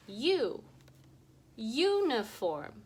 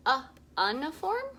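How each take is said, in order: First: "U, uniform." with long u, ju, slow and sure; long U sound. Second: "Uh, uniform?" with short u, ʌ, louder and rising; wrong short U try. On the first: Teacher shows kids the right vowel, confident. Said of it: "Let's flip that vowel sound". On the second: Teacher shows kids the wrong vowel, doubtful. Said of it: "that doesn't sound right". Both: Shown as a demonstration.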